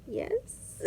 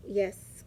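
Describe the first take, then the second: First: Tiny high, soft squeak of an answer; small high-pitched, uncertain yes; hesitant yes. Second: Said in the usual way. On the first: Retold or imitated. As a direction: imitate a timid reply, pitched way up and hushed. Retold meek reply to doctor's look.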